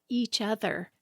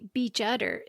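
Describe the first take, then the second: First: The phrase starts with a plain vowel sound. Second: The phrase starts with an added b sound. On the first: The standard pronunciation. The speaker calls it right. "instead of" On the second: A small child's mispronunciation. The speaker calls it wrong. "he always used to say beach udder"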